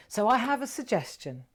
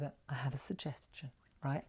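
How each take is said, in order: First: Said in the usual way. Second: Hushed secretive whisper, much softer; a playful conspiratorial whisper. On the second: Shown as a demonstration. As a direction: lean in and whisper it. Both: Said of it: "I look at me, old Japanese".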